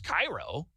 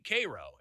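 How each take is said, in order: First: It is pronounced like the Egyptian city. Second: It is pronounced the local Illinois way. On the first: It names the city in Egypt. "Spelled the same way as Cairo" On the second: It names the town in Illinois. "we say it here in Illinois"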